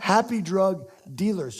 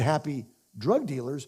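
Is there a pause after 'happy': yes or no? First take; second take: no; yes. First: It is said without a pause after happy. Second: There is a pause after happy.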